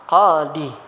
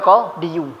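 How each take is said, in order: First: The word ends in a plain long i. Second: The word ends with an added -yu syllable. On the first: The speaker calls it right. "dia tetap baca qa qadi" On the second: The speaker calls it wrong. "Karena si thiqal berat"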